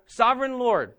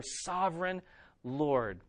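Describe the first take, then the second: First: Proclaimed. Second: Reverent. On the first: End of the prayer proclaimed. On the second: Quoting the church's reverent prayer. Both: Acted.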